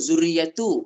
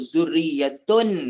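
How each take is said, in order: First: The word ends on a vowel without n. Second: The word ends with a final n sound. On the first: The speaker calls it wrong. "ibu jangan sebut dzurriyyatu" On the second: The speaker calls it right. "sebut dzurriyyatun"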